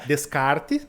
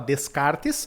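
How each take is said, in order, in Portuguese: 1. O s final fica mudo. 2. O s final é pronunciado. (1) "no francês esse S no final a gente não fala, então fica Descartes" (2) "a gente em português fala Descartes"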